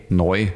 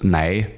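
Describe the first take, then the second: First: "neu" with an oy vowel; changed sound shown. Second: "Nei" with an ei vowel; older sound shown. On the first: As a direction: say "neu" in the Standard German way, with oy. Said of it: "ist aus Nei neu geworden". ("neu" mit eu, hochdeutsch gesprochen) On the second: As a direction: say "Nei", rhyming with German drei. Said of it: "Deshalb ist aus Nei neu geworden". ("Nei" mit ei statt eu) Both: Shown as a demonstration.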